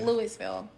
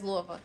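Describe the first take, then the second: First: Every syllable is sounded out as spelled. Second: The name is shortened with its syllables reduced. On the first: The speaker calls it wrong. "I was sounding it out" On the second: The speaker calls it right. "but it's Louisville"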